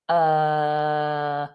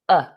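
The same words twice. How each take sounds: First: The vowel sound is drawn out long. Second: The vowel sound is short and relaxed. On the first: The speaker calls it wrong. "if you were doing a longer version of the schwa, it would sound like you're confused" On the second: The speaker calls it right. "so shorten that sound"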